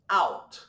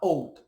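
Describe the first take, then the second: First: The vowel sounds like 'ow' in cow. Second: The vowel sounds like 'oh' in go. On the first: It means outside. The speaker calls it right. "do O U com o som de AU" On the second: It becomes a different word meaning oats. The speaker calls it wrong. "Jamais você vai falar"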